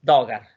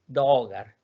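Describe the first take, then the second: First: "dogar" with a short, quick o; short vowel. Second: "dogar" with a lengthened o; long vowel. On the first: Teacher showing the wrong way, "dogar" with short o. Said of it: "No es dogar". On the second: Teacher correcting the short version, "dogar" with long o. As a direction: hold the o in "dogar". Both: Shown as a demonstration.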